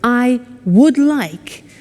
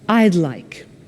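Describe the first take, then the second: First: Both words are said in full, separately. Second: The two words are squeezed into one syllable.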